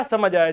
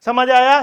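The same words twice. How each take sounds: First: "समझ आया।" said lower, stress on समझ, falling at the end; settled answer. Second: Loud, rising "समझ आया?" asked to the class; checking question. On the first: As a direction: answer "समझ आया।" calmly, letting it drop. Teacher answers as student. ("समझ आया।" नीचे उतरते सुर में, समझ पर ज़ोर) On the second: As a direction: ask "समझ आया?" with a sharp rise at the end. Teacher asks, then answers himself. (ऊँची आवाज़ में उठते सुर वाला "समझ आया?") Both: Pretend.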